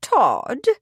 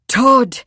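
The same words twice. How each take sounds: First: Higher, swooping incredulous question. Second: Loud, higher astonished roar; thunderstruck roar. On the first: The vicar hears who is accused, incredulous. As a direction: ask it in disbelief, pitch swinging up. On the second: Edward learns who the dead man is, roaring thunderstruck. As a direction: bellow the name in sheer shock. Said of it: "Edward roared, thunderstruck". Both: A narrator's reading.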